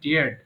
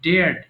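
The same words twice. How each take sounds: First: The word is said as one syllable. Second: The word is said as one syllable.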